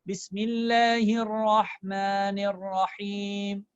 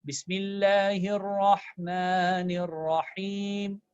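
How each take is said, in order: The two takes are said the same way.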